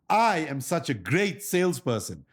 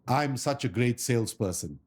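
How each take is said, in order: First: It is said expressively, with lively vocal inflection. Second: It is said flatly, without vocal inflection. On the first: The speaker calls it right. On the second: The speaker calls it wrong.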